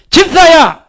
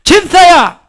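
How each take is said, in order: First: Loud high shout of the name. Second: Very loud, high shout; full-volume call to the deacon; louder shout. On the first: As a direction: call out with full force. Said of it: "내가 집사야 하면". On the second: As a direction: bellow it even bigger. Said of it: "더 크게". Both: Shown as a demonstration.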